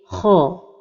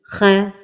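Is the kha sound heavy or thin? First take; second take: heavy; thin. First: The kha sound is heavy and emphatic. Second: The kha sound is thin and light. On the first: The speaker calls it right. "la prononciation correcte est kha" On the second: The speaker calls it wrong. "L'erreur de prononciation ... est de l'amincir comme ceci"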